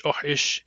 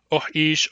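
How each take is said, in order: First: "oh ish" with two brief vowels; short-short variant. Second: "oh ish" with a lengthened second vowel; short-long variant. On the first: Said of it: "it's pronounced short, short". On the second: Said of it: "short long". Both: Shown as a demonstration.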